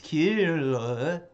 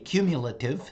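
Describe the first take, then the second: First: The word comes out garbled and cut short. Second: The word is said clearly and completely. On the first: The tongue got tied while saying it. The speaker calls it wrong. "all I could pull off because my tongue got a little tongue tied" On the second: This is the intended pronunciation. The speaker calls it right. "I went to say cumulative"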